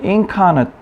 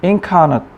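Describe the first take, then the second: The two takes are said the same way.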